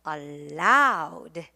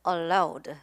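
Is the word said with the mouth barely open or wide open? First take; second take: wide open; barely open. First: It is said with the mouth opened wide. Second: It is said with the mouth barely opened. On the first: The speaker calls it right. "입을 크게 크게 쫙쫙 벌려주시기 바랍니다" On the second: The speaker calls it wrong. "이렇게 조그맣게 입을 벌리시면 안 되겠고요"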